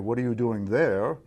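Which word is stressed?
there. The stress falls on the word there. The question is about the place. "It's a question about place and position"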